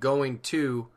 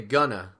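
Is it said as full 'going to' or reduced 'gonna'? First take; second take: full; reduced. First: Both words are said fully and separately. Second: The words are reduced and run together. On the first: "instead of saying" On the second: "which is more like spoken English as well"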